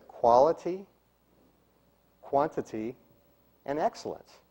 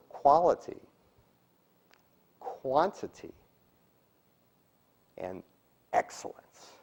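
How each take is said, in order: First: Said in the usual way. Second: Long pauses setting "quality", "quantity" and "excellence" apart; "quantity" softly lifted, "excellence" dropped to near whisper after a long pause; words given meaning. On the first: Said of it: "You hear the difference?". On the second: Shown as a demonstration. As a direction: let each word stand alone, "excellence" soft and hushed. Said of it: "how they should sound".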